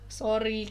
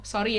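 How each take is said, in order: First: The apology sounds sincere and sweet. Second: The apology sounds sarcastic and dismissive. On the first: The apology is heartfelt. The speaker calls it right. "minta maaf secara sweet gitu loh" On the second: The apology is not meant. The speaker calls it wrong. "itu sarkastik aja"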